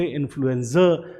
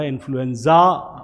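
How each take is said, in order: First: इन्फ्लुएंजा ending in a short "zuh"; correct pronunciation. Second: इन्फ्लुएंजा with a long "zaa" ending; wrong pronunciation. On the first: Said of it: "last में अ बोलते हैं". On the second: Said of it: "मैंने इसे नहीं बोला है". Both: Shown as a demonstration.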